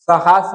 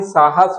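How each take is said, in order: First: साहस as "sahaas"; shifted long vowel. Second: Said in the usual way. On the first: Shown as a demonstration. Teacher showing a misspelling, long second vowel in साहस. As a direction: move the long "aa" to the end of साहस. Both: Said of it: "आ का इधर का उधर कर दिया".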